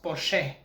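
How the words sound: It is pronounced the Bulgarian way. "in Bulgarian it's pronounced Porsche"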